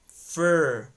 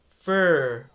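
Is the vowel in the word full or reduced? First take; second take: reduced; reduced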